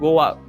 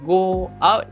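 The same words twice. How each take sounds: First: A w sound links 'go' and 'out'. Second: The words are said without a linking w sound. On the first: "we tend to say go out" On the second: "instead of saying go out"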